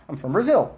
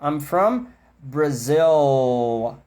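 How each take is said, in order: First: Said in the usual way. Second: Very slow I'm from Brazil. with long final L; slow stretched version. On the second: Shown as a demonstration. Teacher contrasting stretched demo with fast speech, slow. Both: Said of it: "na fala rápida eles não esticam tanto".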